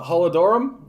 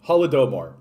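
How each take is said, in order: First: Holodomor garbled as "holla-DOR-um", rising; unsure mispronunciation. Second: Holodomor said confidently as "hollo-DOE-mor", falling; corrected pronunciation. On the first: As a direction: stumble on Holodomor, ending it "-dorum" like a question. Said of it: "can never fucking pronounce this correctly". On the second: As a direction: land Holodomor cleanly with a long "doe" before "mor". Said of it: "Okay, I got it". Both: Real, not acted.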